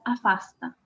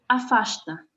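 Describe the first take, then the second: First: The s before the t sounds like s. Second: The s before the t sounds like sh. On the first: This is how someone without the Rio accent says it. "Milton la pronuncia afasta" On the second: This is how people from Rio de Janeiro say it. "Chico la pronuncia con sh"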